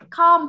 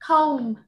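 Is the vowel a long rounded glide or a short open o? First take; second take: short open; long glide. First: The vowel is a short open o. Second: The vowel is a long rounded gliding o. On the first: The speaker calls it wrong. "không phải là com" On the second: The speaker calls it right. "đây là cái từ này là comb"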